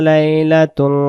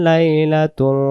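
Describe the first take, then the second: The two takes are said the same way.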